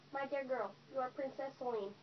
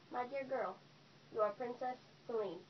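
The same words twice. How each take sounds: First: It is said at a normal pace. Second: It is said slowly.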